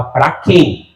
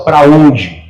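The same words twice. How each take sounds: First: "quem" stressed, falling: "Pra quem?". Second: "onde" stressed, falling: "Pra onde?". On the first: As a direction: land the weight on "quem". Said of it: "Ele fala". (ênfase em "quem", tom descendente) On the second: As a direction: land the weight on "onde". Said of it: "ele não fala assim, ó". (ênfase em "onde", tom descendente) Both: Shown as a demonstration.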